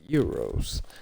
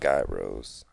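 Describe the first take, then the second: First: The word begins with a 'y' sound. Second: The word begins with a 'j' sound. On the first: This is how other people say it. "other people pronounce them euros" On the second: This is how the speaker says it. "I pronounce them gyros"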